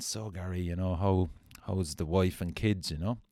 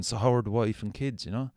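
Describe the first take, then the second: First: Said in the usual way. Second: The question asked again, louder and higher, stress on how; repeated louder. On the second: Retold or imitated. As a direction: push the question a second time, insisting. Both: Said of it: "and I just went again".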